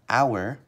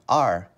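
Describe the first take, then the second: First: The word rhymes with 'hour', with two vowel sounds. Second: The word sounds like the name of letter R. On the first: "we can pronounce it like our" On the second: "or we can pronounce it like R"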